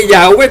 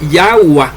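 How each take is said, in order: First: Yahweh said "YAH-weh"; Yahweh with final "weh"; Yahweh ending in -weh. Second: Yahweh said slowly as "YAH-wah"; Yahweh with final "wah"; Yahweh ending in -wah. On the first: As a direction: close Yahweh on an E sound. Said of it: "no se dice Yahweh como dicen ustedes". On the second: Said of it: "se dice Yahweh". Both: Shown as a demonstration.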